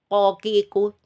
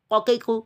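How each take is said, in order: First: Each vowel is held for one full beat. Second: Each vowel is cut shorter than one beat. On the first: The speaker calls it right. "harusnya qaf itu dibaca satu harokat" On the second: The speaker calls it wrong. "tapi dibaca begini ... dipendekkan"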